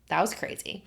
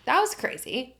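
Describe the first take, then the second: First: Said in the usual way. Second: "That was crazy" said higher, with "was" falling hard; stunned disbelief at the ending; excited repeat. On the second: Real, not acted. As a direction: exclaim it, amazed at the ending. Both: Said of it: "repeated with more force".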